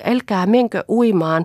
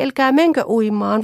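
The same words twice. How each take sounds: First: Loud panicky plea, stress on menkö; frightened plea. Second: Higher, loud pleading, menkö stretched; more desperate plea. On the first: Children begging mother not to go swimming. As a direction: beg her to stop, menkö pushed. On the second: Children begging mother again, more desperately. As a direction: beg harder this time. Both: Acted. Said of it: "hätäillen huusivat".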